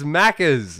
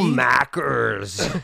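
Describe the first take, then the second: First: It is said in a natural Australian accent. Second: It is said in a put-on American accent. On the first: The speaker calls it right. "It's Macca's and it's brekkie" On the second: The speaker calls it wrong. "That's my American accent"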